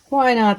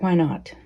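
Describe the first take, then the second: First: Why not? higher and louder, punching Why; emphatic repeat. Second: Said in the usual way. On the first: Real, not acted. Repeats her own question.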